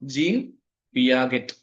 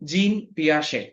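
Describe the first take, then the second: First: The surname has a hard g and ends in t. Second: The surname has a soft zh and ends in a vowel. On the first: The speaker calls it wrong. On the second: The speaker calls it right.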